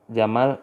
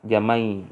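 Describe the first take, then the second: First: The word ends with a clear l sound. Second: The final l is replaced by a y sound.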